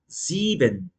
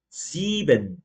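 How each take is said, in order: The two takes are said the same way.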